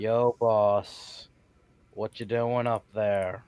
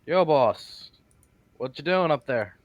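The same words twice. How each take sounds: First: Slow, drawn-out hail; unhurried, stretched-out delivery at normal volume; magical message. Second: Casual shout up to someone; louder, higher opening hail; calling up. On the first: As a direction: send the words out slowly. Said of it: "cast message to talk to him". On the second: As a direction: call up to a stranger overhead. Calls up to figure on statue. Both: Acted.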